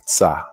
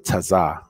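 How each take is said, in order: First: The consonants are run together in one syllable. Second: A vowel splits it into two syllables. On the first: "you're supposed to pronounce it like Tza" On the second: "But you can say Taza"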